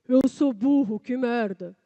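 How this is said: It is said in a thick, deep voice. "Agora você vai engrossar essa voz"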